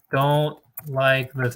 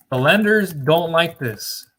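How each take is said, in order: First: Don't like this stretched out very slowly, with don't leaned on; very slow emphasis. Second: The lenders don't like this said slowly and loudly, stressing lenders; slow, loud warning to business owners; firm emphasis. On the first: Coach repeating the warning very slowly to drive it home. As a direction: drag each word out to drive it home. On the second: Coach warning clients, slow and loud with stress on lenders. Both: Shown as a demonstration.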